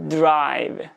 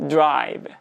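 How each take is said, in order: First: Throat voicing begins before the d bursts. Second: Throat voicing begins before the d bursts.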